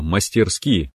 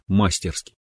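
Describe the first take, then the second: First: The stress is on the last syllable. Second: The stress is on the first syllable. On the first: The speaker calls it right. "Правильно" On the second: The speaker calls it wrong. "а мы говорим"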